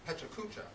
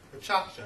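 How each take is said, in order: First: It is said with an American pronunciation. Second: It is said with a Japanese pronunciation. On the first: The speaker calls it wrong. "as an American, you may want to pronounce these words" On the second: The speaker calls it right. "the correct pronunciation of these Japanese words"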